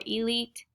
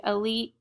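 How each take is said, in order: First: "elite" as ee-LEET; "elite" opening on a clear ee; alternative pronunciation. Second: "elite" as uh-LEET; "elite" opening on a short uh; first pronunciation. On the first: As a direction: say "elite" with a long ee first syllable. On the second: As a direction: say "elite" with an unstressed schwa first. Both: Shown as a demonstration. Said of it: "or elite".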